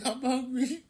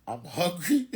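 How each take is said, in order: First: High, giggling through the words; laughing. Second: Said in the usual way. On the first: Real, not acted. Telling viewers he's hungry, laughing high. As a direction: laugh it out, tickled. Repeats line, second laughing.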